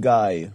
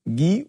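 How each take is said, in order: First: The name is pronounced the English way. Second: The name is pronounced the French way. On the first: The person is English-speaking. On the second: The person is French-speaking.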